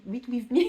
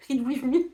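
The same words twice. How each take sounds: First: A light English accent on "read with me", said "rid wiz mi". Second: "read with me" pushed into a stronger English accent, higher and louder with a laugh; exaggerated English accent. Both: Shown as a demonstration. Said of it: "mon accent anglais".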